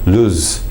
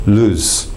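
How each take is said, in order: First: The final Z is weakened toward a hissing S. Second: The same.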